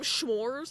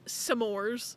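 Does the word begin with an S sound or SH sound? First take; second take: SH sound; S sound. First: The word begins with an sh sound. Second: The word begins with a plain s sound. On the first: The speaker calls it wrong. "they called them schmores" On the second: The speaker calls it right. "no, it's s'mores, not schmores"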